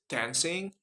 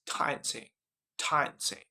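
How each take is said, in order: First: American "dancing" with the A of "cat"; American accent, front A in "dancing". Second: British "dancing" said "dahn-sing"; British accent, broad A in "dancing". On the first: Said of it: "In American is dancing". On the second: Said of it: "but in British accent". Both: Shown as a demonstration.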